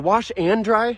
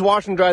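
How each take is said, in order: First: The word 'and' is said in full with emphasis. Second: The word 'and' is reduced to an n sound. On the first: The speaker is surprised this is happening again. "often for emphasis ... as if they're surprised" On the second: It is an ordinary request. "It's just the sound of the letter N"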